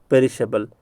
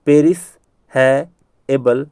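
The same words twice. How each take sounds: First: Said in the usual way. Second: "पेरिस है एबल" with long gaps between parts; broken into parts. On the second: Shown as a demonstration. Teacher repeating for memorisation, broken into parts. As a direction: say "पेरिस है एबल" one piece at a time. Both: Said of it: "याद करवाने के लिए मैं कह रहा हूँ ऐसा".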